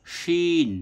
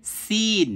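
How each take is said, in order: First: শিন drawn out with a full sh; shin with sh. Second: সিন drawn out with a sharp s; sin with s. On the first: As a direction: say শিন higher, long ee after sh. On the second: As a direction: say সিন with a long ee and clean s. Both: Shown as a demonstration. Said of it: "পার্থক্যটা করতে হবে".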